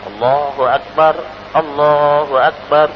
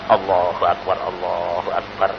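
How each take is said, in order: First: It is said in a loud voice. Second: It is said in a quiet voice.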